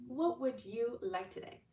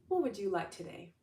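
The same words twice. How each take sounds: First: Higher, slower, sing-song God voice; God asking again. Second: Lightly voiced God, gentle question; God asking kindly. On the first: Retold or imitated. God repeating his offer, slower and higher. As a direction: draw it out like a doting father. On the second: God offering the listener anything, lightly voiced. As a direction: ask it like a kind father. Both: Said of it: "And God's like".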